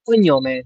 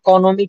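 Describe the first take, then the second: First: The middle consonant is a palatal ny sound. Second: The middle consonant is a plain n sound. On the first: The speaker calls it right. "কি না ইতালিয়ান কন্যমে" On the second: The speaker calls it wrong. "তো ইতালিয়ানরা কি বলে তোর কনমে"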